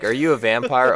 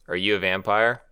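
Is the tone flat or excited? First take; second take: excited; flat. First: It is said in a shocked, excited tone. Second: It is said in a flat, unimpressed tone.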